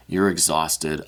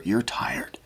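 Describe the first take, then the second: First: Said in the usual way. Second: Breathy whisper of sympathy; real hushed whisper. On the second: Real, not acted. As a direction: whisper it gently to them. Empathic card reading to viewer.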